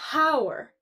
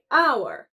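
First: The word starts with a clear H sound. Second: The word starts with a vowel sound and no H sound. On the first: The speaker calls it wrong. "We don't say hour" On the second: The speaker calls it right. "we say hour"

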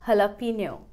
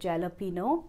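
First: The word begins with an 'h' sound. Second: The word begins with a 'j' sound. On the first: The speaker calls it right. "The pronunciation is हलापिनो" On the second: The speaker calls it wrong. "लिखा जाता है जैलपिनो"

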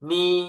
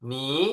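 First: The pitch stays high and level. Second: The pitch rises from middle to high. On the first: "เสียงที่หนึ่ง" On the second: "เสียงที่สอง"

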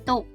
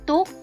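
First: The syllable is said with a low tone. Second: The syllable is said with a high tone. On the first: "ได้แก่เสียงเอก" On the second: "เสียงตรี"

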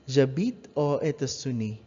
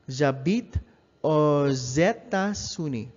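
First: Aux and États-Unis are said without a linking z. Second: Aux links to États-Unis with a z sound. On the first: The speaker calls it wrong. "that's a wrong pronunciation" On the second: The speaker calls it right. "you pronounce the X as an S sound, and you connect it a vowel sound"

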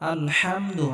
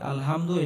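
First: The h sound is pressed lightly in the throat. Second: The h sound is light, without throat pressure. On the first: The speaker calls it right. "গলার মধ্যে হালকা চাপ দিয়ে উচ্চারণ করতে হবে" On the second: The speaker calls it wrong. "আলহামদু এটা হবে না"

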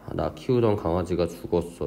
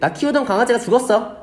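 First: It is said sadly in a low voice. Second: It is said cheerfully in a high voice.

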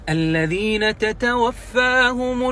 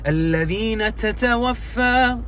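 First: The t sounds have only light breathy friction. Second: The t sounds have heavy, hissing breathy friction. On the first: The speaker calls it right. "تسمع تاء ما فيها حرف السين، مو مشمومة بالسين" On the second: The speaker calls it wrong. "لما تصير فيها همس وايد الذين تتوفى تصير مو حلو"

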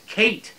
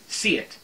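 First: The name begins with a K sound. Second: The name begins with an S sound. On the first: The speaker calls it right. "C-E-I-T is pronounced Kate in Gaelic" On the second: The speaker calls it wrong. "this is my stupid American brain here"

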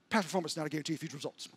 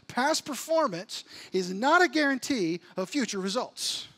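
First: It is said very fast. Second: It is said at a normal speed.

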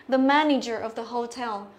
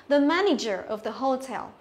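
The two takes are said the same way.

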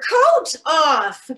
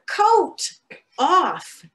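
First: It is said at the loudest volume. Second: It is said at a louder volume.

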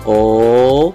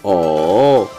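First: The pitch rises from low to high. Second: The pitch dips down and comes back up. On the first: "nada kedua naik" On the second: "nada ketiga diayun"

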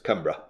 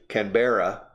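First: It is pronounced the Australian way. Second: It is pronounced the American way. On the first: "and the Australians, Canberra" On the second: "The Americans say Canberra"

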